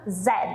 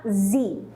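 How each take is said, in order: First: The letter is named in a British accent. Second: The letter is named in an American accent. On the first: "No inglês britânico, essa letra se chama Z" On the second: "no inglês americano, essa letra se chama Z"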